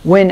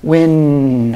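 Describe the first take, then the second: First: The final N sound is short. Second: The final N sound is held long. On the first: "as I normally would" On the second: "I'm hanging on to that N"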